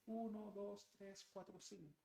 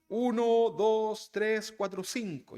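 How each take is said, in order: First: The voice is distant and faint. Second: The voice is farther away and softer. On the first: The speaker has moved farther away. "si me alejo un poquito más" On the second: The speaker has moved away. "Pero luego me alejo. ... Ya lo escucho un poquito más despacio"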